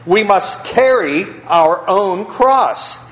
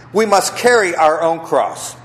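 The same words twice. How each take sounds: First: Slow, high, weighty: We must carry our own cross; slow emphatic. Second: Said in the usual way. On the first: Shown as a demonstration. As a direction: lean on each word. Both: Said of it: "repeats the point".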